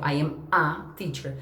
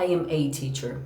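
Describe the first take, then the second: First: A said as a short weak uh, slow; reduced a. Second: A said fully like the letter name ay; full a. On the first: Teacher showing the usual American reduced a. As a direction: say a as a quick neutral uh. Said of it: "a gente vai falar". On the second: Teacher showing the alternative full ay pronunciation. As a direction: give a its full ay sound like the letter. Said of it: "Mas eu posso falar". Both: Shown as a demonstration.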